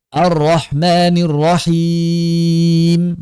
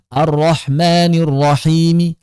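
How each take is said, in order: First: The word ends on a silent m. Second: A faint short vowel follows the final m.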